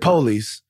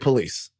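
First: It is said the Black South Baton Rouge way. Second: It is said the white South Baton Rouge way.

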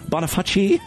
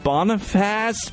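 First: The name ends with a 'fah-see' sound. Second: The name ends with a 'face' sound. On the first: "So, Bonifaci" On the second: "I know Boniface is probably wrong"

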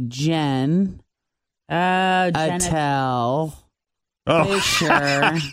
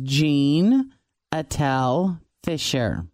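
First: The name is said slowly, word by word. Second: The name is said at a normal pace. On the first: It reveals a hidden dirty joke. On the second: It sounds like an ordinary baby name.

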